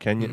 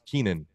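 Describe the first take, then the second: First: The name is said as Kenyan. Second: The name is said as Keenan. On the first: The speaker calls it wrong. "not Kenyan" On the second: The speaker calls it right. "it's pronounced Keenan"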